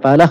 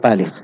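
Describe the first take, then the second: First: The second vowel is an 'a' sound. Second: The second vowel is an 'i' sound. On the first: "Bisa dibaca Palakh" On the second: "bisa dibaca Palikh"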